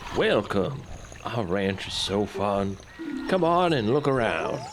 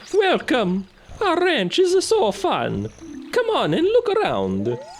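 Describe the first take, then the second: First: It is read in the speaker's ordinary voice. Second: It is read in a put-on character voice. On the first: The speaker calls it wrong. "Sorry, sorry. Hold on" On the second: The speaker calls it right. "I gotta use the right character voice for this"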